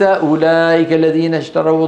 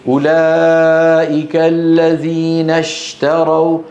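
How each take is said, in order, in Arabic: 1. صوت الشين ضعيف وخافت. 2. صوت الشين قوي ومنتشر. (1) "وليس" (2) "التفشي يجعل الشين ايه قوية"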